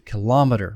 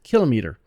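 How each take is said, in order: First: The stress falls on the second syllable. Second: The stress falls on the first syllable. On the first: This is the later, more naturalized way. "more of a natural English pronunciation as it became a common word" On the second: This is the older way the word was said. "when we first started using this word in American English, we said kilometer"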